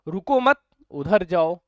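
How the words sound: There is a pause right after 'mat'. Do not stop; go there right away. "यहाँ पे हमने pause थोड़ा सा दूर बात लिया"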